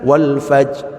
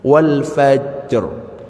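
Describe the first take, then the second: First: The final r sound is dropped. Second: The final r sound is clearly pronounced. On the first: The speaker calls it wrong. "ya salah, ra-nya hilang" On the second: The speaker calls it right. "Itu bacanya seperti itu"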